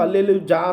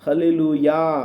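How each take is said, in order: First: The last syllable begins with a J sound. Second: The last syllable begins with a Y sound. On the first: The speaker calls it wrong. "ఇంగ్లీష్లో హల్లెలు జా అనరు" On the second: The speaker calls it right. "జే అనేది వై pronunciation వస్తుంది"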